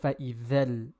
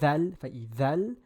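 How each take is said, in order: First: The vowel on the dhal is a reduced 'uh'. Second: The vowel on the dhal is an open 'ah'. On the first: The speaker calls it wrong. "instead of" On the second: The speaker calls it right. "more of an ah sound"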